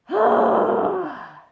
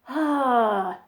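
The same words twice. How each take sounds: First: A harsh, exasperated vowel with much more air. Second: A plain, relaxed vowel with little extra air.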